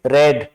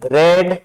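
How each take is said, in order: First: The vowel is a short 'eh' sound. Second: The same.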